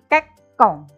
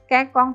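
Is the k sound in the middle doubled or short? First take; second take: doubled; short. First: The middle k sound is held and doubled. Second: The middle k sound is short and single. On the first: The speaker calls it right. "bunyinya menjadi rangkap" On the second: The speaker calls it wrong.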